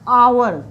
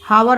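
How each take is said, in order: First: The word begins with a vowel, no h. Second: The word begins with an h sound. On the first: The speaker calls it right. "हमेशा एच silent होता है" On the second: The speaker calls it wrong. "हावर नहीं पढ़ेंगे"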